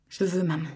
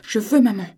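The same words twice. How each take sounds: First: Said in the usual way. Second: Put-on louder, higher child's demand; foot-stamping demand. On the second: Little girl demanding her mother, louder. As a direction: stamp the words out like a cross child. Elle frappa du pied.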